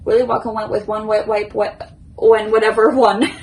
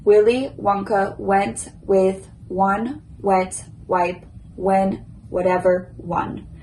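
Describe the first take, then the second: First: The sentence is said as fast as possible. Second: The sentence is said at a slow pace. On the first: "now I will do it as quick as I can" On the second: "First slow"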